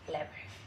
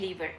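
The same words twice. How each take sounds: First: It is said with an American English pronunciation. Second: It is said with a British English pronunciation. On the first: "In American English, lever" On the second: "in British English you say lever"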